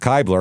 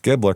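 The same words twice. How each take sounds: First: The first syllable does not rhyme with 'rib'. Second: The first syllable rhymes with 'rib'. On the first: The speaker calls it wrong. "I was going to pronounce it Kibler" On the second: The speaker calls it right. "rhymes with rib, like Ribbler"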